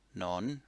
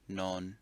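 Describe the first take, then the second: First: The pitch rises on the syllable. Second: The pitch stays level on the syllable.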